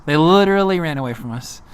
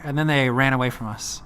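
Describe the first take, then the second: First: Literally punched, louder; literally said louder, then the rest of the line; stress on literally. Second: Said in the usual way. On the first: Real, not acted. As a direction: hit the word literally hard.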